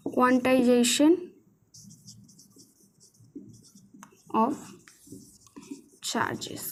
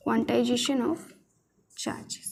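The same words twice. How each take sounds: First: Each word stretched with long gaps; painfully slow dictation, fading at the end. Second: Said in the usual way. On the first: Shown as a demonstration. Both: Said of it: "English वाले लिख लो भाई".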